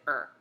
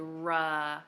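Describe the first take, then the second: First: The R sound is clipped short with no uh. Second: The R sound ends with an added uh vowel. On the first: The speaker calls it right. "We clip it, we keep it real short, we say er" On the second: The speaker calls it wrong. "we don't sound it out with the uh on the end. We don't say ruh"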